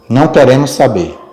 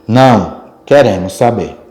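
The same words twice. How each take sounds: First: It is said without a pause after 'não'. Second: It is said with a pause after 'não'. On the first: We do not want to know. "Pode também mudar uma opinião" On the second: We do want to know. "são bem interessantes aí as pausas"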